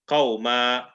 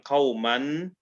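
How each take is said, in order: First: The word ends with a long vowel. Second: The word ends with an n sound. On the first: The speaker calls it right. "you take one of the fathas off. So you'll say qawma" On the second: The speaker calls it wrong. "instead of saying qawman"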